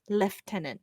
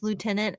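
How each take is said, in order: First: The first syllable sounds like 'lef'. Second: The first syllable sounds like 'loo'.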